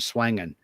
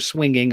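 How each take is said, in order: First: The word has a Southern US vowel. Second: The word has a standard, non-Southern vowel. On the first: "I'm swanging, ... when I'm down there" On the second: "I don't go swinging"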